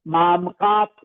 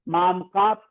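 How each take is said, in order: The two takes are said the same way.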